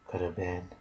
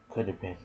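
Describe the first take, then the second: No difference in how they are said.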